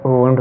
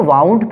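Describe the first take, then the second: First: वुंड with a short oo, as in wound; correct pronunciation. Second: वाउंड with ow as in cow, the way some say it; common mispronunciation. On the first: (वुंड को छोटे 'उ' के साथ, सही उच्चारण) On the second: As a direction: say वाउंड with a wide ow vowel. (वाउंड को 'आउ' के साथ, जैसा कुछ लोग पढ़ते हैं) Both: Shown as a demonstration. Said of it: "इसका अगर रियल प्रोनाउंसिएशन देखा जाए".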